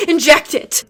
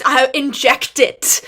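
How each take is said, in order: First: Much louder, higher, pressed home; louder gush. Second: Louder, slow excited gush; bursting with fan glee; gushing delight. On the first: Fan repeating her verdict, louder excited gush. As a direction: repeat it with even more glee. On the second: Fan describing the show, excited gush. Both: Real, not acted. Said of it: "like, I just".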